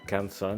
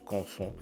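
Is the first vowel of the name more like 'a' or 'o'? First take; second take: a; o. First: The first vowel sounds like an open 'a'. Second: The first vowel sounds like a rounded 'o'. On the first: This is how the speaker usually says it. "Moi j'ai tendance à, à, à prononcer que ça Canson" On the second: This may be the genuinely French way to say it. "peut-être que c'est vraiment français et que du coup ça se prononce Conson"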